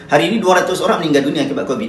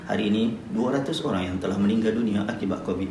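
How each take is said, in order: First: The sentence is read in a bright, cheerful tone. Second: The sentence is read in a soft, sad tone. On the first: The speaker calls it wrong. "tak boleh, tak sesuai" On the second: The speaker calls it right.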